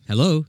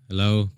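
First: It sounds warm and enthusiastic. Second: It sounds bored and uninterested.

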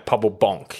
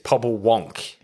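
First: The second word begins with a B sound. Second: The second word begins with a W sound. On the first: The speaker calls it right. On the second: The speaker calls it wrong. "we've been saying it wrong"

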